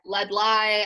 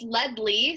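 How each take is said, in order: First: The last syllable sounds like 'lie'. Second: The last syllable sounds like 'lee'. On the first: Other people often say the name this way. The speaker calls it wrong. "But I get lead lie" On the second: This is how the name is really said. The speaker calls it right. "it's lead Lee, so it's basically like lead of a pencil, and then like Lee"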